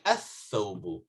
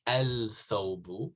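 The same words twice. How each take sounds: First: Athawbu with the lam silent, th doubled; right athawbu. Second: Al-thawbu with the l sounded; wrong al-thawbu. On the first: Teacher gives students the correct athawbu. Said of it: "you say athawbu". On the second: Teacher shows students the wrong al-thawbu. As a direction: say al-thawbu with a clear lam. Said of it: "You don't say al-thawbu". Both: Shown as a demonstration.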